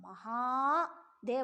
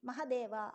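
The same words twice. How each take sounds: First: The second vowel is held long. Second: The second vowel is made short. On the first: It would refer to the highest god Brahma. "ಮಹಾದೇವ ಅಂತಂದರೆ ಅದು ಬ್ರಹ್ಮದೇವರಾಗಿಬಿಡ್ತಾರೆ" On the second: It marks a lower rank than Brahma. "ಸ್ವಲ್ಪ ಹ್ರಸ್ವ ಮಾಡಿ"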